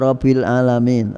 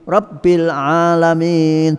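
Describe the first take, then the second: First: The b sound is short and single. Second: The b sound is doubled and pressed. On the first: The speaker calls it wrong. "jangan diwaca" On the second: The speaker calls it right. "Rabb harus ber ditekan"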